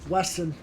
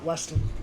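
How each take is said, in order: First: The name is said without a T sound. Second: The name is said with a T sound. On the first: The speaker calls it right. "It's Wesson" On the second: The speaker calls it wrong. "not Weston"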